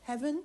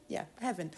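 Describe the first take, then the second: First: Musing question, rising; wondering aloud, testing the word. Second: Settled, falling confirmation; affirming. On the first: Echoing own word, musing. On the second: Answering own question, confirming. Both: Real, not acted.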